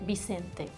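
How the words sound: It is said with a Latin American accent. "in Latin America they will say Vicente probably"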